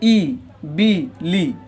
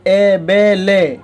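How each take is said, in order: First: The vowels are short, high 'ee' sounds. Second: The vowels are lower 'ay' sounds. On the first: The speaker calls it right. "इस तरह मारूफ है और इसी तरह पढ़ने का सही तरीक़ा है" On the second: The speaker calls it wrong. "इसको मजहूल कहते हैं"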